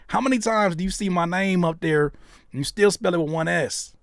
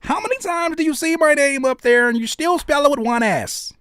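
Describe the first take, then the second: First: Raised pitch, toned-down indignant complaint; milder mock outrage. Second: High-pitched, hammed-up indignant complaint; mock outrage. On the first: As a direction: repeat the gripe with playful exasperation. Repeats the complaint less heatedly. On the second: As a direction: wail it in exaggerated exasperation. Mock outrage over misspelled name.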